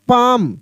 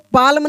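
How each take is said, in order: First: The L sound is silent. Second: The L sound is pronounced. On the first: The speaker calls it right. "इसको पढ़ेंगे यहाँ पे पाम" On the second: The speaker calls it wrong. "पाल्म नहीं पढ़ेंगे"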